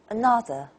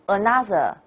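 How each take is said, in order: First: The middle syllable is stretched and stands out. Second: All syllables are equally strong. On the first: The speaker calls it right. "English way is another... this stretched syllable, ah, na, stands out" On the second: The speaker calls it wrong. "You do not say another. That's Chinese"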